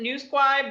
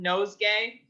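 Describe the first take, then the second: First: The word sounds like 'newsquai'. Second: The word sounds like 'nosegay'. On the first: This is how the speaker's own group says it. "we pronounce it Newsquai" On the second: This is how many other people say it. "a lot of people call it nosegay"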